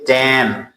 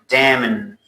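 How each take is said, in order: First: The final n sound is left silent. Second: The final n sound is pronounced. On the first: The speaker calls it right. "You say damn" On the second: The speaker calls it wrong. "You don't say damn"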